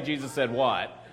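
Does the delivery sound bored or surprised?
bored. It is said flatly, sounding bored. The speaker calls it wrong.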